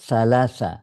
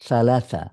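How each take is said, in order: No difference in how they are said.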